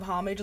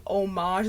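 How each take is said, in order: First: Second "homage" as HOM-ij; English-style HOM-ij for "homage"; everyday homage. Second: First "homage" as oh-MAHZH; French-style oh-MAHZH for "homage"; fancy homage. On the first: Comparing with the fancy saying, "homage" as HOM-ij. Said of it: "instead of homage". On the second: Comparing fancy sayings, "homage" as oh-MAHZH. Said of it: "me saying homage instead of homage". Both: Shown as a demonstration.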